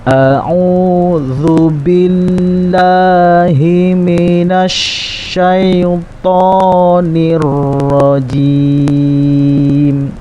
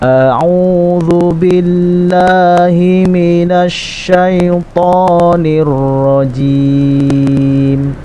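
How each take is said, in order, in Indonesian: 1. Frasa itu dibaca pelan. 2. Frasa itu dibaca lebih cepat.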